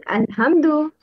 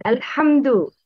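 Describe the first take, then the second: First: "alhamdu" with ha said as a plain h; wrong ha. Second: "Alhamdu" with a proper ha; correct pronunciation. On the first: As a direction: mispronounce "alhamdu", softening ha into an English h. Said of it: "The wrong is". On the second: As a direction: say "Alhamdu" with a true Arabic ha, not the plain h. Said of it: "Please listen and repeat". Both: Shown as a demonstration.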